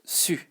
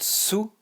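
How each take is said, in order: First: "su" with a front rounded u, between ee and oo; correct French u. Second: "su" said like English Sue; oo vowel, mistaken version. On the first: Teacher contrasting for learners the right sound, French u. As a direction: say "su" with tongue forward, lips rounded. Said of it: "not su, but su". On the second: Teacher contrasting for learners what not to say, oo instead of French u. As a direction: say "su" with a back oo sound. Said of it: "So not su". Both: Shown as a demonstration.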